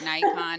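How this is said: Nikon is said the American way. This is how people in the US say it. The speaker calls it wrong. "We call it Nikon"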